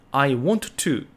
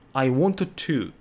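The two takes are said the same way.

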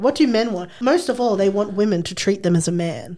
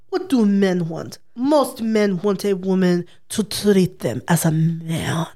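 First: It is said in the speaker's usual accent. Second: It is said in an Eastern European accent.

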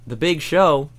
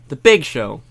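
First: The stress falls on the word Show. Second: The stress falls on the word Big. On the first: The speaker calls it wrong. "The commentators say" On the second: The speaker calls it right. "And it should be"

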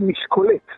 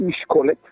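First: The stress placement makes it sound French. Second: The stress sounds like normal Hebrew.

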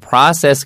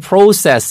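First: It is said in an American accent. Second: It is said in a British accent. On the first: "process 그러면은 미국식 발음이에요" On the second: "process 이러면은 영국식 발음이고요"

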